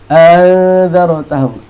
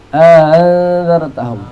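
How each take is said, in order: The two takes are said the same way.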